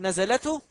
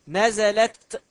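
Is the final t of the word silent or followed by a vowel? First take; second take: vowel; silent. First: The final t is followed by a vowel. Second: The final t has no vowel after it. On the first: The t marks the subject, the speaker. The speaker calls it wrong. "هل أقول نزلته؟ لا" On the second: The t marks a feminine verb. The speaker calls it right. "انظر إلى التاء ساكنة"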